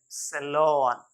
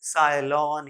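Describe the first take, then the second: First: सैलून said "SE-lawn"; correct pronunciation. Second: साइलॉन said "SIGH-lawn"; "eye" in the first syllable of साइलॉन; wrong pronunciation. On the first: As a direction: open "aw" in the end of सैलून. (सैलून का उच्चारण "सेलॉन") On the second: (साइलॉन, "साइ" वाला गलत उच्चारण) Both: Shown as a demonstration. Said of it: "न कि".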